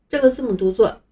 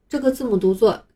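Both takes have the same delivery.

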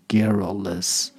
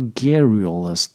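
First: The middle vowel is a short 'uh', British style. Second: The middle vowel sounds like 'oo', American style.

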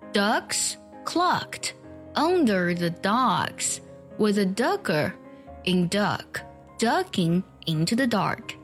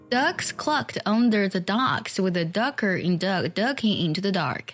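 First: It is read slowly and carefully. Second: It is read at a normal speaking pace. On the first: "我来慢慢读一下" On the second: "正常语速"

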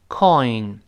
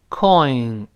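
The two takes are said the same way.

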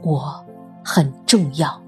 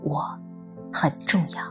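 First: It is said a bit louder. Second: It is said quietly, almost to oneself.

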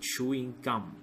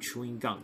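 First: The last word ends with an m sound. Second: The last word ends with an n sound. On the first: It names the sweet you chew. The speaker calls it right. "这个地方要读是chewing gum" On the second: It sounds like chewing a gun. The speaker calls it wrong. "不能读chewing gum，如果读chewing gum 老外听到就是你在用嘴巴去嚼一把枪"

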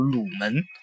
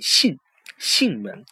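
First: The first syllable is pronounced lu. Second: The first syllable is pronounced xin. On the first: The speaker calls it wrong. "好多人读成了鲁门啊" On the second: The speaker calls it right. "其实念囟门"

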